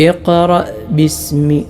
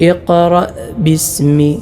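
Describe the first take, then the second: Both takes have the same delivery.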